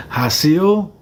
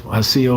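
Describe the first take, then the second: First: "Hasil" said higher with a rising, questioning tune, HA-sil; trying out the name "Hasil" tentatively, pitch lifting at the end; unsure name. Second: Said in the usual way. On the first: Real, not acted. Thanking a viewer for gifts, unsure how to say "Hasil". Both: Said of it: "did I say that right?".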